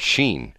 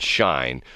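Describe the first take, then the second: First: The name is read with English vowel values. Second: The name is read with German vowel values. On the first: "Or it could be called Sheen" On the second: "if we use the German pronunciation, it would be called Shine"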